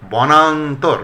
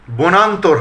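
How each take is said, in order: First: বনান্তর said as "bɔnantor"; correct open vowel. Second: বনান্তর said as "bonantor"; closed "bo" opening বনান্তর; mistaken close o. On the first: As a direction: say বনান্তর with an open aw, "baw-nan-tor". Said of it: "হবে". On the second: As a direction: say বনান্তর with a rounded first o, "bo-nan-tor". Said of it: "হবে না". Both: Shown as a demonstration.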